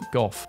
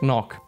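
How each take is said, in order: First: The name ends with an f sound. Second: The name has rough throaty consonant sounds. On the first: This is the British way of saying it. The speaker calls it wrong. "British people pronounce it Goff" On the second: This is the Dutch way of saying it. The speaker calls it right. "his name is actually pronounced Van Knock"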